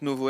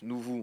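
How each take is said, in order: First: The first vowel is an 'oh' sound. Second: The first vowel is an 'oo' sound. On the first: "est-ce que ça se prononce Novo?" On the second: "Est-ce que ça se prononce Nouveau?"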